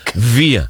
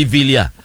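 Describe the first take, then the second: First: "Villa" as VEE-ya, l left silent; correct pronunciation. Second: "Villa" as VIL-ya, with the l sounded; rejected pronunciation. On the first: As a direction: say "Villa" with only a y for the ll. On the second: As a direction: say "Villa" with an audible l before ya. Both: Shown as a demonstration. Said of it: "hindi Villa".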